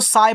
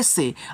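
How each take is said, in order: First: The vowel glides from a broad 'aa' sound. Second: The vowel is a single long 'e' sound. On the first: The speaker calls it wrong. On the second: The speaker calls it right.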